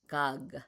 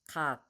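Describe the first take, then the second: First: The final consonant is voiced with resonance. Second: The final consonant is voiceless without resonance. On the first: The speaker calls it wrong. "we don't have that resonance like gog" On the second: The speaker calls it right. "We don't do that. Cog"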